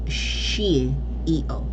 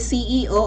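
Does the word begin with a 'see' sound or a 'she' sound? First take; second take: she; see. First: The word begins with a 'she' sound. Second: The word begins with a 'see' sound.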